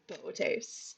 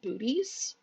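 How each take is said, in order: First: The name does not sound like 'booties'. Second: The name sounds like the word 'booties'. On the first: The speaker calls it right. "told actually it's Bootes" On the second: The speaker calls it wrong. "will pronounce it booties until I was corrected"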